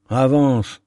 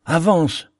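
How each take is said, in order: First: Ermite qui presse le pilote, ferme; pousse-le à avancer, vif et pressant; vivement. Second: « avance » relancé plus haut, plus insistant; répète « avance » en montant, l'urgence grandit; vivement, plus pressant. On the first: (l'ermite presse le pilote : « Avance » dit avec vivacité) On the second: (l'ermite insiste auprès du pilote : « avance » plus haut et pressant) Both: A narrator's reading. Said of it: "dit vivement l'ermite".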